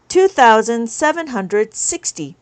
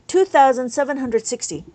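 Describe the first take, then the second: First: Slow, spaced reading of the number. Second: Said in the usual way. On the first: Shown as a demonstration. Teacher announcing the next abacus number to viewers, slowly. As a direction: lay each part of the number out slowly.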